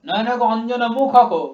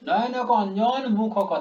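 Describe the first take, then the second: First: The phrasing is pushed and forced. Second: The phrasing is plain and relaxed. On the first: The speaker calls it wrong. "ওটা জোর করছি আমি, জোর করে চাপিয়ে দিচ্ছি" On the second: The speaker calls it right. "Plane পড়বে, কোনো চাপ নয়।"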